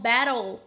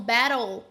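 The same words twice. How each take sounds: First: The middle consonant sounds almost like an R. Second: The middle consonant sounds almost like an R.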